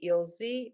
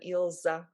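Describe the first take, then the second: First: The name ends in a non-'a' vowel. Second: The name ends in an 'a' vowel. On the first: The speaker calls it right. "it's better to be Ilzi" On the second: The speaker calls it wrong. "with an ending a"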